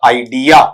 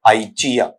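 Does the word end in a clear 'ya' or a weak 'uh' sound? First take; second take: clear ya; weak uh. First: The word ends in a clear 'ya' sound. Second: The word ends in a weak 'uh' sound. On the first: The speaker calls it wrong. "ऐसा पढ़ देते हैं ... लेकिन ये गलत है" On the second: The speaker calls it right. "आ नहीं, या नहीं, ए ... ए लास्ट का साउंड है"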